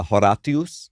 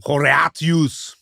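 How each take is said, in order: First: Understated Latin "Horatius", each syllable sounded; classical Latin pronunciation. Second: Slow, higher, hammed-up Latin "Horatius"; classical Latin. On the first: Shown as a demonstration. Named contestant answering after his rival, modest classical Latin pronunciation. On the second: Contestant jumping in first with classical Latin, overblown and drawn out. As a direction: stretch ho-RAH-tyoos out theatrically. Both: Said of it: "how would we pronounce this in classical Latin".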